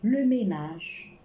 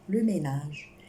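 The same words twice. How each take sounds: First: Le ménage drawn out slowly and louder; teacher to class, dwelling on le ménage slowly and loudly; slow stressed model word. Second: Said in the usual way. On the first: Shown as a demonstration. Teacher to class, le ménage spoken slowly and loud.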